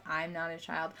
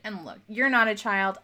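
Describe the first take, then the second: First: "I'm" stressed while the phrase drops much softer. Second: "you're" lifted and leaned on, the rest plain; stress on you're. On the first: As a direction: turn it on yourself with "I'm", quietly. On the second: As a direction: point at the listener with "you're". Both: Real, not acted. Contrast you're and I'm.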